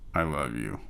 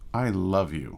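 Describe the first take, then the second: First: It sounds irritated and exasperated. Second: It sounds deeply adoring and heartfelt. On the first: You're annoying me. "you're annoying me" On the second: You're the most amazing person in the world. "you're the most amazing person in the world"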